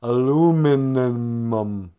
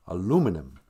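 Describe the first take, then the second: First: "Aluminum" drawn out loud with extra m's and n's; labored tongue-twister. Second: Said in the usual way. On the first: Shown as a demonstration. Struggling with a hated word, "Aluminum" slow and overstretched. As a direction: stumble slowly through "Aluminum", stretching the middle. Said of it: "I hate that word". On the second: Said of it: "Is that right?".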